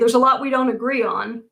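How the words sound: It sounds serious and provocative.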